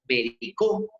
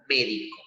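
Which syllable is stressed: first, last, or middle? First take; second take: last; first. First: The stress is on the last syllable. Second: The stress is on the first syllable. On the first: "cuando la sílaba saltó a la última" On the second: "llegó a la antepenúltima"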